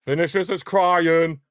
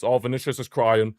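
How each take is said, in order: First: Higher, slower, teasing and drawn out; milk the word crying to taunt him; mocking sing-song. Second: Said in the usual way. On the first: Real, not acted. Fan taunting a rival player who went down, mocking sing-song.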